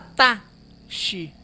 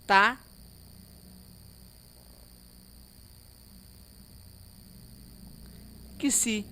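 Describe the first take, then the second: First: The x is said as an sh sound. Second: The x is said as a k plus s. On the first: The speaker calls it wrong. "Não fala tá, xi" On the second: The speaker calls it right. "É assim que nós pronunciamos"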